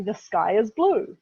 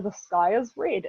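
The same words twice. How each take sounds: First: "The sky is blue" spoken slowly and clearly; clear and simple. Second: "The sky is red" spoken slowly and clearly; clear and simple. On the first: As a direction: spell out "The sky is blue" plainly. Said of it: "what that literally means is". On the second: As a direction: lay out "The sky is red" word by word. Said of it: "if you wanna be really clever". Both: Shown as a demonstration.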